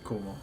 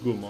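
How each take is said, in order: First: The word begins with a k sound. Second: The word begins with a g sound. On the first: It is the word standing alone. "instead of Kumo" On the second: It is part of a compound word. "then it becomes uh, Gumo"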